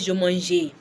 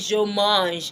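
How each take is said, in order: First: A final vowel is sounded after the g. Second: The word ends on the g, no vowel. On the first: The speaker calls it wrong. "I will not say je mange" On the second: The speaker calls it right. "You just say je mange"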